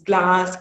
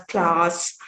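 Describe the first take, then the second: First: Said in the usual way. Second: Glass said with a k, as "class"; Jaffna Tamil pronunciation. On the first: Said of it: "girl sound is also replaced". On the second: Shown as a demonstration. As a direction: start "class" on k instead of g. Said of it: "with the k sound".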